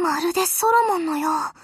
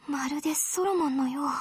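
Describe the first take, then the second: First: Said in the usual way. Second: Low, soft, almost to herself; quiet and lower; hushed. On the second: Acted. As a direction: murmur the memory quietly. Same line, hushed.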